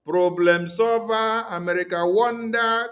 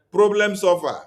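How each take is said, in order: First: Slow, mocking "Problem solver"; sarcastic drawl. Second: Said in the usual way. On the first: Shown as a demonstration. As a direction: stretch "Problem solver" out slowly in scorn. Mocking America as saviour.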